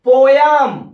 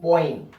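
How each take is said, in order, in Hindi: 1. दूसरा अक्षर 'yum' जैसा लगता है। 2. दूसरा अक्षर 'im' जैसा लगता है। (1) "क्या पढ़ते हो? पोयम।" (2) "सही आपका शब्द होता है पोइम"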